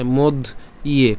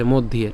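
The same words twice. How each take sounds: First: "মধ্য ইয়ে" split in two, with a pause before "ইয়ে"; separated syllables. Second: "মধ্যে" joined as one word, no break; run together. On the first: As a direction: say "মধ্য", stop, then "ইয়ে". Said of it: "আলাদা করে উচ্চারণ করি". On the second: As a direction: say "মধ্যে" in one go, linking both parts. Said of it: "একসাথে উচ্চারণ করবেন". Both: Shown as a demonstration.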